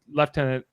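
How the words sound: It is said with a British pronunciation. "lieutenant is the British version"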